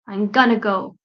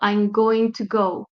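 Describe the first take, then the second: First: "Going to" is reduced to "gonna." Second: "Going to" is said in full. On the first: It sounds casual and informal. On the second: It suits a formal situation.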